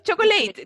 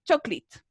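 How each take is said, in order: First: "chocolate" misread as choco-LEIT; the mistaken choco-late, rhyming with "eight"; wrong English pronunciation. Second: "chocolate" squeezed to CHOK-leet; two-syllable "chocolate", ending on a crisp t; English pronunciation tip. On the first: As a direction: say "chocolate" with a long "ay" in the last syllable. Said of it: "No es chocolate, no, es choclito". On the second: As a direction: say "chocolate" like choclito without the final o. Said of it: "le quito la O al choclito". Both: Shown as a demonstration.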